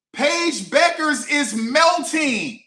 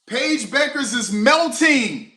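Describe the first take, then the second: First: Even higher, slower, drawn-out yell; louder disbelief. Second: Loud, high and slow, stretched out; excited yell. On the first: Fan shouting it again, higher and slower in disbelief. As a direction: stretch every word in disbelief. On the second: Fan shouting about the player melting, loud and stretched. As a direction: call it out like breaking news. Repeating the meltdown line. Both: Real, not acted.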